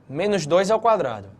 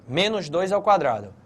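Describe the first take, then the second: The two takes are said the same way.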